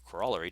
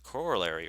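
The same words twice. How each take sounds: First: The word is said the Canadian way. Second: The word is said the American way.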